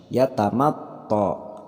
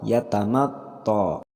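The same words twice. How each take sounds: Both takes have the same delivery.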